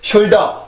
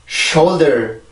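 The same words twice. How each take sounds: First: All syllables are even, with no stress. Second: The first syllable is stressed, with strong air. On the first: The speaker calls it wrong. "절대 shoulder, shoulder, shoulder 이런 발음이 아니라" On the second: The speaker calls it right. "이렇게 발음을 해주세요"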